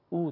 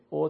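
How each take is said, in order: First: او said as a short Arabic "u"; Arabic-style او, a tight short u; Arabic zamma sound. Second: او said as a short Persian "o"; Farsi-style او, a rounded short o; Persian zamma sound. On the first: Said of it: "در زبان عربی به صورت". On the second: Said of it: "در زبان فارسی به صورت". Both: Shown as a demonstration.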